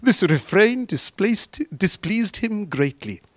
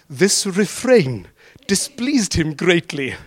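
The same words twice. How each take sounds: First: Slow, deliberate scripture reading; plain slow reading. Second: Put-on relishing the old phrasing; slow, grand reading. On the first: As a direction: read it again, weighing each word. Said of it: "And the women said". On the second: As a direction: savour each word slowly, half laughing. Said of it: "it's nearly Shakespeare". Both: Shown as a demonstration.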